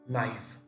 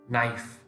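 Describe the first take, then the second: First: The k at the start is silent. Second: The same.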